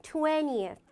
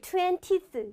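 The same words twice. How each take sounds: First: "Twentieth" as TWEN-ee-eth, schwa kept; correct pronunciation. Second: "twentieth" squashed to TWEN-teeth, no schwa; wrong pronunciation. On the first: Teacher giving students the proper form, TWEN-ee-eth. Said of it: "이게 제대로 된 발음입니다". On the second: Teacher imitating learners' common mistake, TWEN-teeth without schwa. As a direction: say TWENTIETH as twen-TEES, swallowing the middle vowel. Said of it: "이렇게 발음해서 틀리십니다". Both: Shown as a demonstration.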